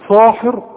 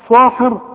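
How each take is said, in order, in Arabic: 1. صوت s الأول ثقيل ومفخّم. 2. صوت s الأول ثقيل ومفخّم.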